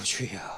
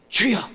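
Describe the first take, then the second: First: It is said in a sobbing, lamenting voice. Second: It is called out loudly like a fervent prayer. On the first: It is a lament of weakness and despair. The speaker calls it right. "흐느끼듯이 그렇게 읽어야 됩니다" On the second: It is a bold cry to God. The speaker calls it wrong. "우리가 통성 기도할 때 주여 이렇게 기도하는 게 아니고요"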